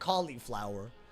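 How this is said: It is said in a non-Southern American pronunciation. The speaker calls it right. "I pronounce it cauliflower"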